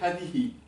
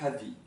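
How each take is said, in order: First: The final hi syllable is pronounced. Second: The final hi syllable is dropped. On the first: This is the standard form. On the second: This is the dialect form.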